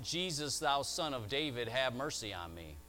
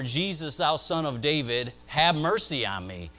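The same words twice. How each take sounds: First: It is cried out at ordinary loudness. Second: It is cried out at its loudest.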